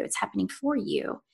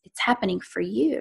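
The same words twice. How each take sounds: First: Quiet line with "for" said full and weighted; stress on "for". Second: Said in the usual way. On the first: Retold or imitated. Inner voice reassuring her in crisis, stress on "for". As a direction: softly lean on "for", not reducing it to "fer".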